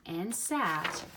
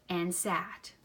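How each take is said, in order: Both takes have the same delivery.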